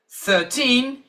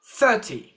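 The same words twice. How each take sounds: First: Put-on thirteen with the weight on teen; stress on teen. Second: Thirty with the weight on thir; stress on thir. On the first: Teacher modelling thirteen for students, stress on teen. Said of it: "the stress is on teen". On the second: Teacher modelling thirty for students, stress on thir. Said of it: "stress is on thir". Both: Shown as a demonstration.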